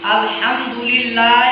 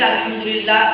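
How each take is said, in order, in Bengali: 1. শব্দের একটি স্বরবর্ণ লম্বা করে টানা হয়। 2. স্বরবর্ণটি টান না দিয়ে ছোট করে বলা হয়। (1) "একালে টান আছে" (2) "টান না দিয়ে পড়ি"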